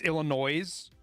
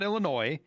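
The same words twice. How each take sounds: First: The final S sound is pronounced. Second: The final S sound is silent. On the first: The speaker calls it right. "And it's Illinois" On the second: The speaker calls it wrong. "If it was Illinois, it wouldn't have a fucking S on the end of it"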